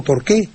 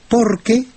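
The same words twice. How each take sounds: First: "por qué" run together as one word, accent on qué; stress on QUÉ. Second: "por qué" as one word, higher, stressed on the o of por. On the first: Teacher defining the noun, "por qué" as one word stressed on qué. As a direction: join "por qué" and lean on the final qué. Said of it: "en una sola palabra y con acento". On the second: Teacher explaining the answer word, "por qué" joined with stress on por. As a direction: join "por qué" and lean on por. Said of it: "prosódico sobre la O". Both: Shown as a demonstration.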